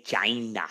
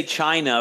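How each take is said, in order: First: "China" said as JY-nuh; "China" comically turned into JY-nuh; mock mispronunciation. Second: Said in the usual way. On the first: Shown as a demonstration. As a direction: say "China" with a soft j at the start. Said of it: "Apparently we say China". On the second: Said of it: "We can't say China".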